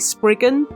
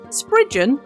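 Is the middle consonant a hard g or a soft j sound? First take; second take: hard g; soft j. First: The middle consonant is a hard g sound. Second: The middle consonant is a soft j sound. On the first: The speaker calls it wrong. "tempting and probably a bit easier to say Spriggan, it's not correct" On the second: The speaker calls it right. "that is the proper Cornish way of saying it"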